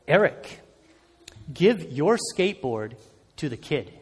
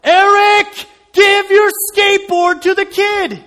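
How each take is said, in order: First: Soft, low voice in his head, fading at the end; a faint divine nudge, softer and lower; quiet inner voice. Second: Much higher, loud, slow booming command; a divine voice shouting inside his head; God's voice in his head demanding, higher and much louder; even louder inner voice. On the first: Inner voice of God speaks. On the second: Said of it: "but this time even louder". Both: Retold or imitated.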